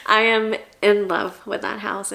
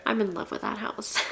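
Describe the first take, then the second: First: Am stretched and pushed, I am in love; stress on am. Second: Said in the usual way. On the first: Real, not acted. Stressing am to her viewers about the house. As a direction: lean hard on am in I am in love.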